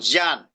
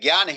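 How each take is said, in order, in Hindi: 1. शब्द की शुरुआत jn ध्वनि से होती है। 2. शब्द की शुरुआत gy ध्वनि से होती है। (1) "संस्कृत में उसको ज्ञान" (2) "ज्ञान हिंदी में बोला जाता है"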